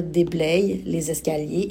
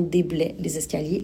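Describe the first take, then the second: First: Déblaye ending in an audible "y" glide, like "day-bleye"; déblaye with final y sound. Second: Déblaye said as "déblè", ending on an open è; déblaie without y sound. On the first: Teacher showing the Y spelling, déblaye with its glide heard. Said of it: "je peux décider de dire". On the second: Teacher contrasting the I spelling, déblaye said as déblè. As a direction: drop the final glide of déblaye, just "day-bleh". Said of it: "et non déblaye les escaliers". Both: Shown as a demonstration.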